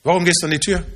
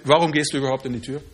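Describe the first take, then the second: First: Gehst leaned on, rising at the end; stress on gehst. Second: Lower, quick throwaway question; quick lower aside. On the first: Friend repeats the question, pressing gehst. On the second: Friend asks why he opens the door, quick and low. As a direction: rattle it off lower, almost in passing. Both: Retold or imitated. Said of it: "bis jemand zu mir sagte".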